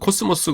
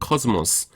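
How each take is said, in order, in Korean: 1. 한국식 음절로 말합니다. 예: 'ko-seu-mo-seu'. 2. 영어 소리로 말합니다. 예: 'kaz-mus'. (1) "영어 하시면서 코스모스 그러지 마세요" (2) "영어 발음은 코스모스입니다"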